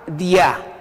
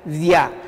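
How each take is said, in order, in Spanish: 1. Empieza con una consonante oclusiva parecida a la d. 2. Empieza con una consonante oclusiva parecida a la d.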